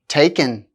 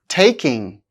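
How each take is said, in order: First: The word ends with a plain n sound. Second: The word ends with an ng sound.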